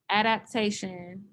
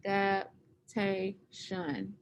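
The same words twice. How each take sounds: First: Adaptation said slowly and clearly, rising at the end; model word. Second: Adaptation drawn out very slowly, syllable by syllable; slow syllable count. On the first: Teacher models Adaptation for students to repeat, slow and clear. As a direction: say Adaptation carefully for students to copy. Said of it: "Can you say that for me?". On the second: Teacher slowly sounds out Adaptation for the class to count syllables. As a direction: stretch out Adaptation so each syllable can be counted. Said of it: "how many syllables does adaptation have". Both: Shown as a demonstration.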